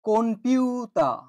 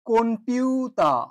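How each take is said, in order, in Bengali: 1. p-এর আগে n ধ্বনি আছে। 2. p-এর আগে n ধ্বনি আছে।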